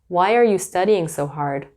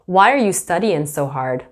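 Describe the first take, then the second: First: The final g of studying is pronounced. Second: The final g of studying is dropped.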